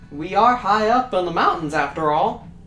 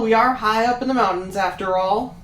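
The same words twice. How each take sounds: First: It is said at a slower pace. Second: It is said at a faster pace.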